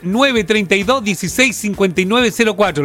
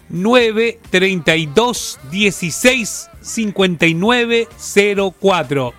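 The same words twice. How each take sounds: First: The number is said fast. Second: The number is said slowly.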